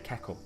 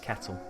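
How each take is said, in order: First: The middle consonant is a k sound. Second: The middle consonant is a t sound. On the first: It is a local way of saying the word. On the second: It is the usual way of saying the word.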